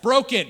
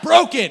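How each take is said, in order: First: It is said plainly, without much feeling. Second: It is said with more passion and feeling.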